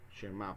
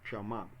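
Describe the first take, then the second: First: The first vowel is an 'e' sound. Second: The first vowel is an open 'a' sound. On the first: The speaker calls it wrong. "algunos lo pronuncian como Shema" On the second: The speaker calls it right. "la mejor pronunciación sería Shama"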